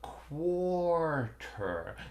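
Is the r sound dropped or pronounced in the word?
pronounced. The r sounds are clearly pronounced. "but quarter, quarter. ... my mouth resists that"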